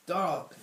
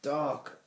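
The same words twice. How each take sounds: First: Loud, high exclamation; exclaiming. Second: Higher, louder one-word prompt; feed the actor the missing word. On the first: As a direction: seize the prompted word and cry it out. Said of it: "Alvis exclaimed". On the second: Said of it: "prompted Mister Lace". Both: A narrator's reading.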